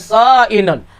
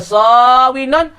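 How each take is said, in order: First: The middle consonant is a glottal stop. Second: The middle consonant is a w sound. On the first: "hamzah terlebih ringi" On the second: "Baca sawinun"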